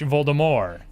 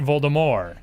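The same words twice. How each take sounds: First: The name is said with a French pronunciation. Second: The same.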